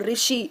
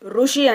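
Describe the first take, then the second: First: The first syllable is said as 'ri'. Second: The first syllable is said as 'ru'. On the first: This is how it is said in Hindi. "హిందీలో రిషి పలుకుతాము" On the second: This is how it is said in Telugu. "మన తెలుగులో మేము ఋషి ఋషి అని పలుకుతాము"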